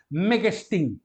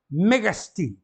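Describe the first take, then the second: First: Megestin as one word, mega and estin fused with no break; run together. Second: Mega estin said as two words, a slight break between them; teacher saying Mega estin apart before correcting it; two separate words. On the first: A teacher shows students to read Megestin all together. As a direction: join it into Megestin. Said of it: "tudo junto". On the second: A teacher demonstrates Mega estin as separate words. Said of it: "tem que ler seguido". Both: Shown as a demonstration.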